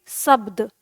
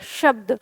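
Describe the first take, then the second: First: शब्द begun with a dental s, as "sabd"; शब्द with tongue at the teeth, hissing s first. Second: शब्द begun with a clear sh, as "shabd"; शब्द opening on palatal श, not s. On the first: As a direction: say शब्द wrongly with s for sh. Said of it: "अगर आप दंत स से बोलते हैं". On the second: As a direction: say शब्द with the tongue under the palate. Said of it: "जीभ है वो तालु के नीचे". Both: Shown as a demonstration.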